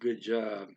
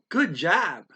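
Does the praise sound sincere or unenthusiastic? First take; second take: unenthusiastic; sincere. First: It is said flatly, without any enthusiasm. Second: It is said warmly, with sincere enthusiasm. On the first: The praise is given only out of obligation. "they didn't sound very enthusiastic about it" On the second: The praise is genuinely meant. "they're probably sincere about it"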